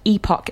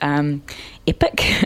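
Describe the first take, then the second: First: The second syllable is full, rhyming with 'lock'. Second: The second syllable is short and reduced. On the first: "epoch is the British pronunciation" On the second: "the American pronunciation is epic"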